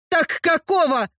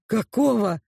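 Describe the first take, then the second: First: Indignant "какого" pushed hard; angry demand. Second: Said in the usual way. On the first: Acted. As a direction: throw the question at him. Heroine demands an answer.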